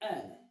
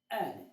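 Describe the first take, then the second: First: The word begins directly with the vowel. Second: The word begins directly with the vowel.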